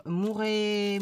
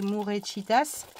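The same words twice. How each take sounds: First: Said in the usual way. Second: Slow, half-hearted Spanish accent on Mourechitas; cheap Spanish accent. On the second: Shown as a demonstration. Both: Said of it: "avec mon accent, euh, à deux balles".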